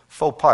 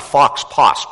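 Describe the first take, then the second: First: The x and final s sounds are silent. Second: The x and final s sounds are pronounced. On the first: The speaker calls it right. "but it's really faux pas" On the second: The speaker calls it wrong. "It's not fox posse"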